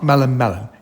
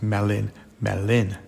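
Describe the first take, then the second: First: The words sound like 'melon melon'. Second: The words sound like 'melin melin'. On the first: The speaker calls it wrong. "It's not Melon Melon" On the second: The speaker calls it right. "it's Melin Melin"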